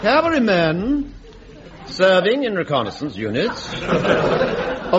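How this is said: The pitch goes up and down.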